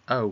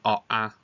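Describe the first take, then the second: First: The letters are said as one single vowel sound. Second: The letters are said as two separate vowel sounds. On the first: The speaker calls it right. "we want to be saying O for road" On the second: The speaker calls it wrong. "we don't want to be saying oh ah"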